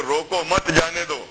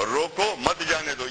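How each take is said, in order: First: روکو مت جانے دو with the break after مت, meaning don't stop, let go; slow phrasing demo, روکو مت grouped, جانے دو after a pause. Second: روکو مت جانے دو with the break after روکو, meaning stop, don't let go; slow phrasing demo, روکو set apart, مت جانے دو after the pause. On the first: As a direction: say روکو مت as one unit, pause, then جانے دو. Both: Shown as a demonstration. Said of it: "پڑھنے کا انداز ہے".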